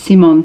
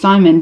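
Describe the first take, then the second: First: The name is said with a Swedish accent. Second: The name is said with an Australian accent. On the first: "everyone says it's Simon in the show with a, with a Swedish accent" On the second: "me and my very Australian accent"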